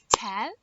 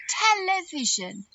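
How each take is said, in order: First: "Television" broken into four separate beats, tel-e-vi-sion; clapped-out syllables. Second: Said in the usual way. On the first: Shown as a demonstration. Teacher clapping out a word for children, "Television" in separated syllables. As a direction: say "Television" one syllable per clap. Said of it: "Let's clap it out".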